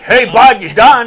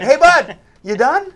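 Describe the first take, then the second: First: It sounds rude and condescending. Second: It sounds chipper and friendly.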